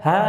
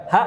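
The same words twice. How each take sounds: First: "ha" held open with air running out; longer, released "ha"; flowing sound. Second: "ha" chopped abruptly short; short "ha" with no trailing breath; cut-off sound. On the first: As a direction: let "ha" trail on in breath. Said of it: "Harusnya ha". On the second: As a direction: stop the air dead on "ha". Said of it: "bukan ha". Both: Shown as a demonstration.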